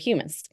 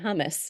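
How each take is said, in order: First: It sounds unlike the food word hummus. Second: It sounds like the food word hummus. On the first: The speaker calls it right. "so humus" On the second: The speaker calls it wrong. "I always want to say hummus. that's the thing we eat"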